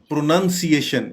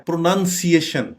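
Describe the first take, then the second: Both takes have the same delivery.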